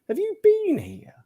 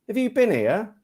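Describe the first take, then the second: First: The word 'been' is said with full emphasis. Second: The word 'been' is said lightly and reduced. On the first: The speaker wants to stress the word. "if we want to put emphasis" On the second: This is the usual everyday way. "But we often do"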